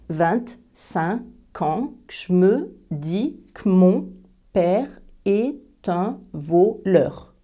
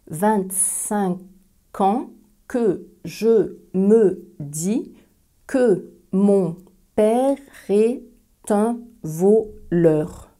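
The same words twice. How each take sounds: First: Several e sounds are dropped, giving eleven syllables. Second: Every e sound is pronounced, giving fourteen syllables. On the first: "Il y a onze syllabes" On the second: "vraiment surarticuler cette phrase ... il va y avoir quatorze syllabes"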